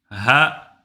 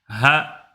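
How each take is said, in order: Both takes have the same delivery.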